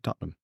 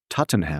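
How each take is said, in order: First: The name is said shortened, with sounds dropped. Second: The name is said with every written syllable. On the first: The speaker calls it right. "you say Tottenham" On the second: The speaker calls it wrong. "You don't say Tottenham"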